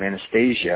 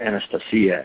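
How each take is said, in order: First: The name has an English-style pronunciation. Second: The name has a Russian-style pronunciation.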